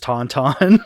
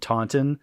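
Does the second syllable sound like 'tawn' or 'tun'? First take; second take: tawn; tun. First: The second syllable rhymes with the first syllable. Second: The second syllable has a short, reduced vowel. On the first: "I always pronounce it as Tauntaun" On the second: "T A U N T O N Taunton"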